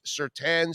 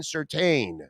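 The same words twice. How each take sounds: First: Surtain ending in TAN; mistaken pronunciation. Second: Surtain ending in TAIN; correct pronunciation. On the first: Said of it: "I see it". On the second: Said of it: "we were calling him Surtain". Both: Shown as a demonstration.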